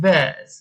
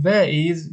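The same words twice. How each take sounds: First: "where's" run into one syllable; contracted form. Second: "where is" said as two separate words; full form. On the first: Teacher shows learners the short question word, one-syllable "where's". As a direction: say "where's" with the s joined straight on. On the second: Teacher shows learners the long question word, "where is" uncontracted. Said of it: "به جای اینکه بگیم". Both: Shown as a demonstration.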